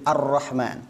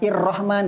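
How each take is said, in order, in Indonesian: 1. Kata ini diawali dengan vokal a. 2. Kata ini diawali dengan vokal i. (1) "Jadi Ar-Rahman" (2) "bukan Ir-Rahman"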